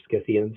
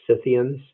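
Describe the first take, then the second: First: Scythians with a hard c, SKITH-ee-unz; hard-c pronunciation. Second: Scythians with a silent c, SITH-ee-unz; soft-c pronunciation. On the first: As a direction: say Scythians starting with an sk sound. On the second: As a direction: say Scythians starting with a plain s sound. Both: Shown as a demonstration. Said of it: "however you say it".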